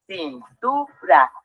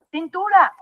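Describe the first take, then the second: First: "Cintura" muy lento, cin, tu, ra; separado en sílabas. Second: Said in the usual way. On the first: Shown as a demonstration. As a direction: separa cada sílaba de "Cintura" con una pausa. ("Cintura" silabeado despacio) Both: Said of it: "Vamos a dividir la palabra".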